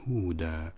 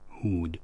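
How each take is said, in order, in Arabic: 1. تنتهي الكلمة بألف مد طويلة. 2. تنتهي الكلمة بحرف ساكن بدون حركة. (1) "نقف عليه بالألف، هودا نقف عليها هكذا" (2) "فالوقف عليه بإسكان الحرف الأخير"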